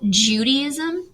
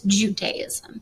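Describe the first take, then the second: First: The word is pronounced in an Americanized way. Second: The word is pronounced without the Americanized form. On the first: The speaker calls it wrong. "Americanization and call it Judaism" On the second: The speaker calls it right. "the correct pronunciation is Judaism"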